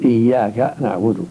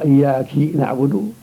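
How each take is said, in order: First: The word iyyak ends with an a vowel. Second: The word iyyak ends with an i vowel. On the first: A male is addressed. The speaker calls it right. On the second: A woman is addressed. The speaker calls it wrong.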